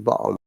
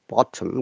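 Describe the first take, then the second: First: The middle T is dropped. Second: The middle T is pronounced. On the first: "in Cockney accent, ... they even do not pronounce T and R" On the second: "They don't say bottom"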